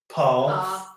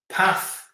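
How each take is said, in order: First: It is said in a southern English accent. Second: It is said in a northern English accent. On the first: "So Lisa would say that as" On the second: "that's how I would say it"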